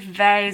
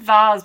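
First: Vase is said the American way. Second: Vase is said in a non-American way. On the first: "Only Americans say vase" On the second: "I want to say vase"

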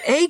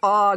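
First: The word is said as 'ague'. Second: The word is said as a short 'og'. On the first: This is how it was heard pronounced aloud. The speaker calls it right. "until I heard Jennifer Akata pronounce it. I'm like, oh, it's ague" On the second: This is how it was said before hearing it aloud. The speaker calls it wrong. "I kept calling it the og"

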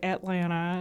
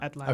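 First: The word is said in a Southern US accent. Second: The word is said in a neutral accent. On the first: "I say Atlanta" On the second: "instead of Atlanta"

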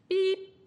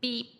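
First: The beep is said at a higher pitch. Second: The beep is said at a lower pitch.

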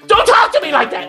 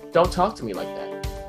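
First: It is suddenly yelled loudly. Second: It is said at a calm, even level.

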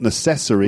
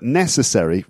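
First: The stress falls on the second syllable. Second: The stress falls on the first syllable. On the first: The speaker calls it wrong. "Not necessary. Sounds like accessory" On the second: The speaker calls it right. "the stress is on the first syllable"

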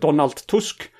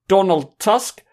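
First: The name is said with Polish pronunciation. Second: The name is said with English pronunciation. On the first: "I think it's more like" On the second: "which is the English pronunciation"

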